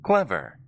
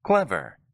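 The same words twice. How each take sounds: No difference in how they are said.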